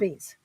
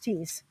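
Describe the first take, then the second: First: The name begins with a th sound. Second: The name begins with a plain t sound. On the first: This is the name of the road. "the road with a T H" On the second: This is the name of the farm. "we pronounce the farm Tees"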